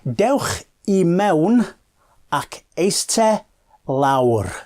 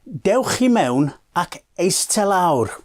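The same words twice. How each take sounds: First: The phrase is said slowly and deliberately. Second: The phrase is said at normal speaking speed.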